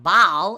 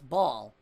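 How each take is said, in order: First: The word is said with a regional vowel. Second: The word is said with a standard vowel. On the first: The speaker calls it wrong. "It's not ball" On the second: The speaker calls it right. "It's ball"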